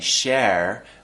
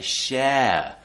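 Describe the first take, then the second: First: The final R sound is clearly pronounced. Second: The word ends in a diphthong without R. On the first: The speaker calls it wrong. "We don't say share" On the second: The speaker calls it right. "we say share... replacing it with... a diphthong"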